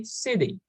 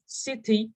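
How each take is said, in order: First: "city" said like "siddy". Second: "city" with a crisp T in the middle; clear T. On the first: Teacher showing natural speech, "city" with a D sound. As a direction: soften the T in "city" to a quick D. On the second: Teacher showing what to avoid, "city" with full T. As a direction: sound the T fully in "city". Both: Shown as a demonstration. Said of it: "Pronouncing T's as D's".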